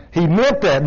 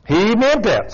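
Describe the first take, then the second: First: Said in the usual way. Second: "He meant that" pitched higher and pressed on "meant"; emphatic repeat. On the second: Shown as a demonstration. Preacher insisting to the husbands, repeating it with higher emphasis. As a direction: hammer home the point on "meant".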